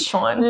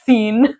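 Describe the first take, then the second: First: The name is said like 'shawn'. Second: The name is said like 'seen'. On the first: The speaker calls it right. "No, it's Sean" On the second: The speaker calls it wrong. "I would pronounce it scene. Like C with an N"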